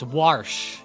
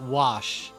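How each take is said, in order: First: The name is said with an R sound. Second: The name is said without an R sound. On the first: The speaker calls it right. "it's Warsh" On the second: The speaker calls it wrong. "not Wash"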